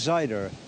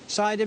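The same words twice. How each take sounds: First: It is said in a Midlands accent with a strong R. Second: It is said in a standard accent.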